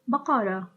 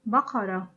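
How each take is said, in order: First: The word ends with a soft H sound. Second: The same.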